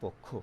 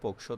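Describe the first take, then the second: First: The middle cluster sounds like k plus kh. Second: The middle cluster sounds like k plus sh. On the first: The speaker calls it right. "ক খ, এটা তো কয়শ নাই ... আমরা করছি পক্ষ" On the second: The speaker calls it wrong. "আমরা পক্ষ তো উচ্চারণ করছি না"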